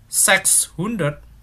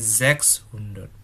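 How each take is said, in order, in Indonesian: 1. Kata ini diawali bunyi 's' tak bersuara. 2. Kata ini diawali bunyi 'z' bersuara. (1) "Bukan sechshundert" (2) "pengucapan S itu Z kayak Z bahasa Indonesia"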